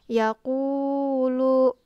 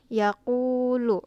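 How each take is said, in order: First: The long vowel is held far too long. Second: The long vowel lasts just two beats. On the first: The speaker calls it wrong. "Nggak bisa kayak gitu karena itu terlalu panjang" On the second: The speaker calls it right. "satu alif atau dua harokat"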